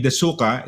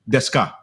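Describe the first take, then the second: First: The u after the s is pronounced. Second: The u after the s is dropped. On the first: The speaker calls it wrong. "instead of say- saying desuka" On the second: The speaker calls it right. "they would say deska"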